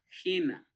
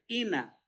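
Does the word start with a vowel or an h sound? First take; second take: h sound; vowel. First: The word starts with a breathy h sound. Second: The word starts directly with a vowel. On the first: The speaker calls it right. "por el espíritu rudo que lleva, voy a leer como J" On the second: The speaker calls it wrong. "esto puedo leer ina"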